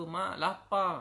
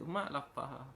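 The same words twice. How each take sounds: First: Put-on higher, pleading child's voice; hungry child. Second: Put-on quiet child plea. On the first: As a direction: whine it like a hungry little kid. Hungry child begs mother. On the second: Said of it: "Budak tu kata".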